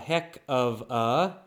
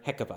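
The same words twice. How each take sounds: First: The words are said slowly and separately. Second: The words are said quickly, run together.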